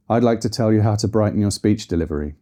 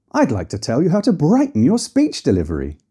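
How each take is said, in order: First: Level pitch sinking through to "delivery"; flat, falling inflection. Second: Big swoops up on "brighten" and "speech", falling on "delivery"; sing-song pitch leaps, taken a bit crazy; overdone melody. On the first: Coach showing dull delivery, flat falling inflection. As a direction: keep it monotone and drop away on "delivery". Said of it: "with a flat, falling inflection". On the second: Coach showing melody taken too far, overdone melody. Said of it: "If you take it too far". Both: Shown as a demonstration.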